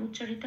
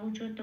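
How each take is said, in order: No difference in how they are said.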